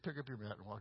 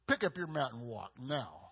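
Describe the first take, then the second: First: It sounds mild and ordinary. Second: It sounds forceful and commanding.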